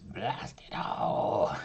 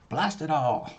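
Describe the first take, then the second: First: It is said in a put-on villain voice. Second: It is said in the speaker's natural voice.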